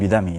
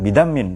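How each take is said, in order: First: The word ends on a vowel. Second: The word ends with an n sound. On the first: The speaker calls it right. "tapi bidami yang betul" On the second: The speaker calls it wrong. "Bukan bidamin"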